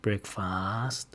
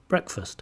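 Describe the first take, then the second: First: The second syllable has a full, exaggerated vowel. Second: The second syllable has a reduced schwa vowel. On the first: The speaker calls it wrong. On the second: The speaker calls it right.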